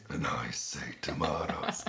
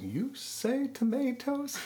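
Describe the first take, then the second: First: Low, slow, breathy answer; deep voice reply. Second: Sung, much higher, slow sing-song line; sung, lilt it like a prim soprano; mock soprano singing. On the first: Retold or imitated. Mimicking the deep-voiced host answering the soprano. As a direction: drop into the booming host voice. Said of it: "And he would say". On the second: Sung, mimicking the prime minister's soprano in the duet. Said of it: "soprano voice saying".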